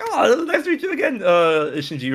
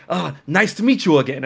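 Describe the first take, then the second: First: Laughing reply. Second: Said in the usual way. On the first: Retold or imitated. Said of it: "And I'm like". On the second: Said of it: "he was like".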